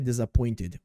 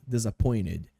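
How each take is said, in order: First: The T sound is clearly pronounced. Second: The T sound is swallowed and dropped. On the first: "a pronúncia é disappointed" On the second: "numa frase fica meio disappointed. Eu meio que como esse T"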